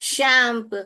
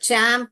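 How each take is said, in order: First: The word begins with a sh sound. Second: The word begins with a ch sound. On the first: The speaker calls it wrong. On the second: The speaker calls it right.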